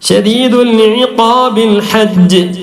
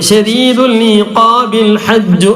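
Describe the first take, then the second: First: The recitation stops on 'hajj'. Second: 'Hajju' runs on into the next word. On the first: The reciter pauses at that point. "അവിടെ വഖഫ് ചെയ്തു" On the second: The words are joined to what follows. "ഇപ്പൊ നമ്മൾ കൂട്ടി വായിച്ചു"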